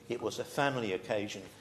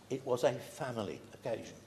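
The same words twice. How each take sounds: First: The word family carries strong emphasis. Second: The word family is said without special emphasis.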